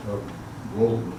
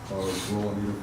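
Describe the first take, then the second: No difference in how they are said.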